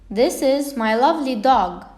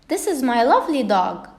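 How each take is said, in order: First: It is said plainly, as a statement. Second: It is said with strong, excited feeling.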